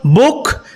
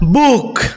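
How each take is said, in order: First: The vowel is short and quick. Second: The vowel is long and tense. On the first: The speaker calls it right. "It's short and quick" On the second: The speaker calls it wrong.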